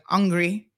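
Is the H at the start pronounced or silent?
silent. The word begins without any H sound. "they don't put any emphasis on the H. It's like hungry"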